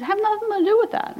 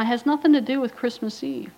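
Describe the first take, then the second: First: "nothing to do with that" pitched much higher, pushed harder; insist, raising the voice on "do"; emphatic repeat. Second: Said in the usual way. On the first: Real, not acted. Repeated claim, emphatic second take.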